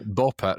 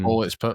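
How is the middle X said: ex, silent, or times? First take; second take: silent; ex. First: The X is left out entirely. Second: The X is spoken as the letter ex. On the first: The speaker calls it right. "You just say ball pit" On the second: The speaker calls it wrong. "X doesn't. You don't say the X"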